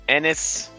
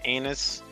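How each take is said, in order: First: The name starts with an 'eh' vowel. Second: The name starts with an 'ay' vowel. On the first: The speaker calls it right. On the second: The speaker calls it wrong.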